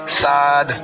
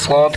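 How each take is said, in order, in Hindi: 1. अक्षर का नाम हल्का और पतला पढ़ा जाता है। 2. अक्षर का नाम भारी और मोटा पढ़ा जाता है। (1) "बारीक पढ़ना" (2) "मोटा पढ़ेंगे"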